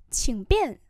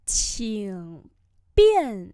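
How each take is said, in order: First: Said in the usual way. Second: Slow teacher's repeat; slow model pronunciation. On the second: Shown as a demonstration. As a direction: separate the two tones. Teacher repeats phrase slowly.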